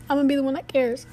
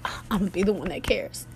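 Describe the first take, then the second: First: Higher, sing-song self-mockery; a lightly mocked, higher echo of the vow; mocking her younger self. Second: Said in the usual way. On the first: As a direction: poke fun at your own naive vow. Repeats her own resolve, mocking.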